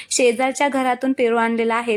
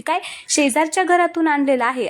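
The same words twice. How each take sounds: First: Said in the usual way. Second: Higher, mildly raised mock shout; shocked yell. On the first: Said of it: "त्यावेळेस श्री एकदम जोरात ओरडतो". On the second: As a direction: blurt it out in shock. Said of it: "Shri एकदम जोरात ओरडतो".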